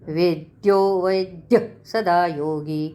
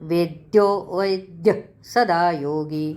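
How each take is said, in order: Both takes have the same delivery.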